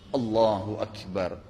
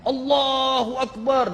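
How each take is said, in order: First: It is said quietly. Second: It is shouted loudly.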